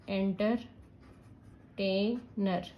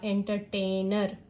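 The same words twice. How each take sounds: First: "entertainer" very slowly as enter, tai, ner; split into syllables. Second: Said in the usual way. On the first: Shown as a demonstration. Teacher adding ER while spelling, split into syllables. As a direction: pause between the parts of "entertainer". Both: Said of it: "अगर मैं ईआर भी add कर रही हूँ".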